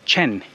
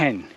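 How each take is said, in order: First: It begins with an English ch sound. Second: It begins with a raspy throat-clearing sound. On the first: The speaker calls it wrong. "sounds like if it's the way that we will read it" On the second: The speaker calls it right. "the sound is more like um, like if you're clearing your throat"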